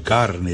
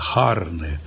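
First: It starts with a hard K sound. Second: It starts with an aspirated H, Florentine style.

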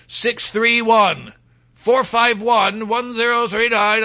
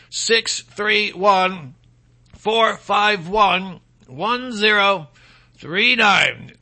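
First: The number is read at normal speed. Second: The number is read slowly.

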